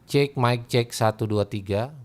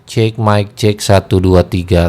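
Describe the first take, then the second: First: Recorded at moderate gain with faint background noise. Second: Recorded at maximum gain with loud background noise.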